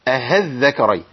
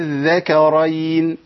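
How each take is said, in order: First: The second hamza is replaced by an h sound. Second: The second hamza becomes a long vowel held long. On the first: "بعضهم بيقول أهذكرين، واظن ان دول جانبهم الصواب" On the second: "بدل الهمزة حرف مد والمد ده جيب عادي ساكن، بمد ست حركات"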